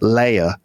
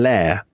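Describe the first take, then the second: First: The word is said in a plain accent. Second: The word is said in a posh accent.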